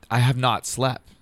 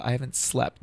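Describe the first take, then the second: First: "not" set apart as a full, emphatic word; stress on NOT. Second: Said in the usual way. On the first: Retold or imitated. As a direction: spell out the denial, leaning on "not". Restates it emphatically to mom.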